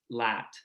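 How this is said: The vowel is made further forward, like 'lat'. This is the newer, shifted pronunciation in the region. "it sounds something more like lat"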